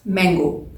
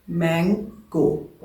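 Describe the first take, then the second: First: Said in the usual way. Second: mango very slowly, broken into मैं and गो; split into syllables. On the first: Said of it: "so just check". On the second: Shown as a demonstration. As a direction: say mango as two separate, drawn-out beats. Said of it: "दो दफ़ा खुला है".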